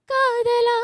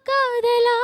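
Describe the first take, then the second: No difference in how they are said.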